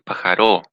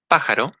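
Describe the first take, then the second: First: The stress is on the last syllable. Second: The stress is on the first syllable.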